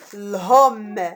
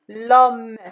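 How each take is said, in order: First: The final e is pronounced aloud. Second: The final e is left silent. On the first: The speaker calls it wrong. "On ne dit pas l'homme" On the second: The speaker calls it right. "On dit l'homme"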